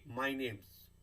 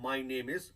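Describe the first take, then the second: First: The word 'is' shrinks to an s sound. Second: The word 'is' is said in full. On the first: "name comma एस" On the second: "मैं ऐसे भी कह सकता हूँ"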